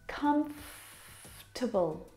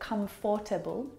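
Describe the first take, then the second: First: The middle vowel is skipped, giving three syllables. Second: The middle vowel is pronounced, giving four syllables. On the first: The speaker calls it right. "but comfortable. We skip that vowel sound" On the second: The speaker calls it wrong. "Not comfortable"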